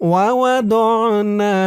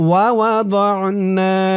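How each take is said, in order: Both takes have the same delivery.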